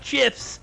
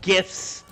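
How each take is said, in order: First: The word begins with a soft j sound. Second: The word begins with a hard g sound. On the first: The speaker calls it wrong. "not Jaffic interface" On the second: The speaker calls it right. "because it's graphic interface"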